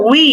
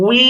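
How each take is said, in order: First: Said in the usual way. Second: "উই" held long on its end vowel; one-alif stretch. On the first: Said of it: "শুধুমাত্র টেনে উচ্চারণ করতে হবে". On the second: Shown as a demonstration. Teacher demonstrating waw with ya, long "উই". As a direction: draw out "উই". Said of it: "এক আলিফ পরিমাণ টান".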